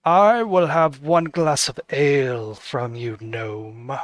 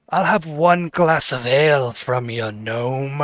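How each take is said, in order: First: The cloaked noble sneers his order at the gnome barkeep; haughty noble, corrected. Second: First reading of the noble's order; said offhand, before the correction; the cloaked noble orders ale, first casual take; plain noble line. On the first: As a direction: talk down to the gnome with cold disdain. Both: Acted. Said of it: "he wouldn't say it like that".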